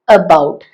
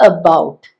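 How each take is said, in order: No difference in how they are said.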